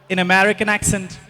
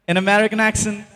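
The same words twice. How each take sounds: No difference in how they are said.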